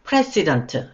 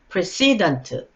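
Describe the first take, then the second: First: The stress is on the first syllable. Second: The stress is on the second syllable. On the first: It is used as a noun. "명사일 땐 president, 강세가 앞음절에 있으며" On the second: It is used as an adjective. "형용사일 땐 precedent, 뒷음절에 첫 강세가 있어요"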